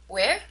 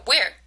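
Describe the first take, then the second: First: "Where" swings up at the end; rising tone. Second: "where" hit louder, then falling. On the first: Teacher checks what the person had said, rising tone on "Where". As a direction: lift "Where" as if not sure what was said. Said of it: "was a rising tone". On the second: Teacher asks where the rug was bought, falling tone on "where". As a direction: drop "where" firmly, wanting more information. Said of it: "was a falling tone". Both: Shown as a demonstration.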